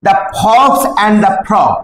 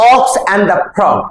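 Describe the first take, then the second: First: "the fox and the frog" misread, with "fox" said with an f sound, slowly; "fox" read by mistake, with a clear f at the start; slip of the tongue. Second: "ox and the frog" said slowly, with "ox" starting on a bare vowel and no f; corrected reading. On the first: Teacher misreads "fox" with an f sound while reading the story title to students. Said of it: "sorry, ox and the frog". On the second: Teacher corrects the title for students, saying "ox" slowly with no f. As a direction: fix it to "ox", with no f at the start. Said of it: "sorry". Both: Shown as a demonstration.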